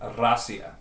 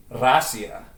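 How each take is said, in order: First: Rasia with an open ah, RAH-see-ah; Russian pronunciation of Rasia. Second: Rasia said with a rolled, open first vowel; Russian pronunciation of Rasia. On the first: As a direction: give Rasia its Russian sound, stress on the first syllable. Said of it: "But it's pronounced". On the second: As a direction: say Rasia the Russian way, RAH-see-ah. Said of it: "Russia is pronounced in Russian". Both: Shown as a demonstration.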